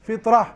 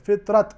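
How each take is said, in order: First: The word ends with an h sound. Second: The word ends with a clear t sound. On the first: This is how four reciters stop on it, against the script. "हा के ज़रिए से वक्फ करेंगे" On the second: This is how most reciters stop on it. "हम ता की आवाज़ निकालेंगे बराबर"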